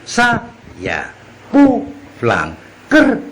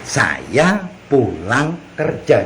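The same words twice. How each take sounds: First: The first syllable of saya is stressed. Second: The second syllable of saya is stressed.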